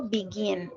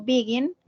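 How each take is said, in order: First: "begin" stressed on the last syllable, be-GIN; final-syllable stress. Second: "begin" stressed on the first syllable, BE-gin; wrong first-syllable stress. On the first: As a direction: lean hard on the GIN of "begin". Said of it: "la acentuación esté al final". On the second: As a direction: hit the BE of "begin", leave gin weak. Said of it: "Yo no digo begin". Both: Shown as a demonstration.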